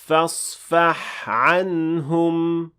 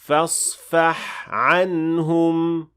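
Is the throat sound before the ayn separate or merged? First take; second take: separate; separate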